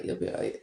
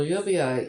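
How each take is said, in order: First: Whispered reassurance. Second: Said in the usual way. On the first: Real, not acted. Streamer to a viewer with back pain, whispered. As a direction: breathe it softly, no voice.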